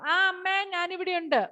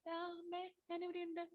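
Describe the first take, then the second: First: It is said loudly. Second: It is said softly.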